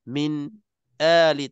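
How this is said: There is a brief stop between the two words. The speaker calls it wrong. "tak nak macam tu"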